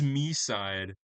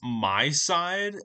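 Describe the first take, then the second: First: The first syllable sounds like 'me'. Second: The first syllable sounds like 'my'. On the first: The speaker calls it wrong. "I was pronouncing it wrong the entire time" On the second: The speaker calls it right. "which I actually learned was pronounced My Side"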